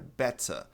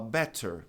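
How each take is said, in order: First: It is said in a British accent. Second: It is said in an American accent. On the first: "O britânico é better" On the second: "Americano fala better"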